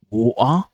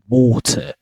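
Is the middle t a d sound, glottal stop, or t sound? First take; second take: glottal stop; t sound. First: The middle t is a glottal stop. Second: The middle t is a clear t sound. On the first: "Cockney accent, where the glottalization happens" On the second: "in British pronunciation, they replace it with a T sound"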